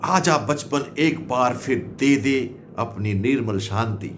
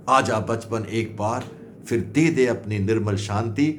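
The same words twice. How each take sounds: The two takes are said the same way.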